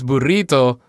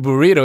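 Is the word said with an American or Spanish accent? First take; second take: Spanish; American. First: It is said with a Spanish accent. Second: It is said with an American accent. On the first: The speaker calls it right. "it's burrito" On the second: The speaker calls it wrong. "it's not really burrito"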